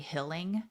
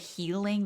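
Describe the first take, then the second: First: The first vowel is a short 'i' sound. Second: The first vowel is a long 'ee' sound. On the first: "they say hilling" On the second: "they don't say healing"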